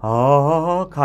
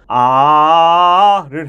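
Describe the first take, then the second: First: The vowel is mumbled and unclear. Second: The vowel is open and clearly articulated. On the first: The speaker calls it wrong. "아가 아니고" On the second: The speaker calls it right. "아를 해야 합니다"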